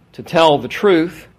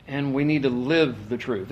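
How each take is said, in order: First: "tell" drawn out and loud; stress on TELL. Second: "live" set apart as the key word; stress on LIVE. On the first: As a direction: lean hard and slow on "tell". Contrasts telling with living the truth. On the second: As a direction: put the contrast on "live". Contrasts living with telling the truth. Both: Real, not acted.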